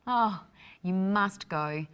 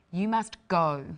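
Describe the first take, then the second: First: Slow and eager, must rising; enthusiastic must. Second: Must hit hard, falling, commanding; stressed MUST order. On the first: Teacher urges a friend to visit Thailand eagerly. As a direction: urge a friend warmly to go. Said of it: "different inflections". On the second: Teacher orders someone away, stressing must. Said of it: "how inflection changes the meaning". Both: Shown as a demonstration.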